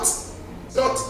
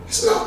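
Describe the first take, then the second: First: Whispered echo. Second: Squeaky high little "It's not"; high echo. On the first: Preacher whispering her point back to the church. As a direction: whisper "It's not" with no voice. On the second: Preacher echoing her point in a high voice. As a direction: pitch the "not" way up, softly. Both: Acted.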